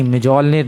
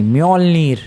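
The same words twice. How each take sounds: First: "म्योजोल्निर" with a hard j, myo-jol-nir; mistaken pronunciation. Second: "म्योल्निर" with a gliding y, myol-neer; corrected pronunciation. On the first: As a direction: say "म्योजोल्निर" with the extra "jo" syllable. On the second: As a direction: say "म्योल्निर" without any j sound. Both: Shown as a demonstration. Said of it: "नहीं, म्योजोल्निर नहीं".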